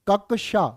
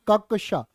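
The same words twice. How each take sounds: The two takes are said the same way.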